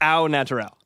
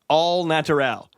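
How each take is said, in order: First: The first word sounds like 'oh'. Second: The first word sounds like 'all'. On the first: The speaker calls it right. "It's au natural" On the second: The speaker calls it wrong. "Somebody hit me with all natural"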